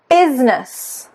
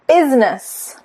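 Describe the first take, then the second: No difference in how they are said.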